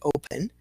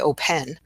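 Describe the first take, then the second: First: The second vowel is a weak schwa. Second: The second vowel is a full E. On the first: The speaker calls it right. "I say open. So my schwa is the E" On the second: The speaker calls it wrong. "I don't say open"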